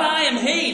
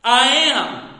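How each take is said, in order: First: High, sing-song "I am he"; the wrong version, said high and lilting; mock wrong reading. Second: "I am." said loud and firm, both words weighted; the correct version, louder and firm; emphatic right reading. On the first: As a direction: toss off "I am he" lightly, half sung. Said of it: "Literally, not". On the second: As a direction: plant "I am." like a declaration. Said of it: "Literally, not "I am he". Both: Shown as a demonstration.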